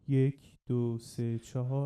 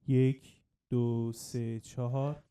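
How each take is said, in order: First: The voice is heard with no delay. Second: The voice is heard with a delay. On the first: "الان من دیلی خاموش میکنم" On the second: "حالا من دیلی روشن میکنم"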